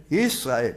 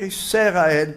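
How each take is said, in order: First: ישראל as YIS-RA-EL, lower and falling; no vowel after the S in ישראל; silent sheva. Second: ישראל as YI-SE-RA-EL with an extra E; wrongly voiced sheva. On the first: Rabbi correcting the mistake for students, lower YIS-RA-EL. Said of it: "זה שבה נח". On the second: Rabbi showing what not to say, extra-vowel YI-SE-RA-EL. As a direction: break ישראל after the S with a vowel. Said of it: "אתה לא אומר". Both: Shown as a demonstration.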